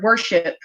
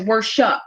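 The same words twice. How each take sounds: First: The ending sounds like the word ship. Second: The ending is altered away from ship. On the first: "they will pronounce the word worship" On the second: "changed the pronunciation of a word just because it sounded too close to another word"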